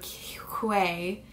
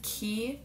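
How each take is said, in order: First: The name is said like 'kway'. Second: The name is said like 'key'. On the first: The speaker calls it wrong. "in my last video I called them Quay" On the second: The speaker calls it right. "people were commenting that it's Key, and that's the way that you pronounce them"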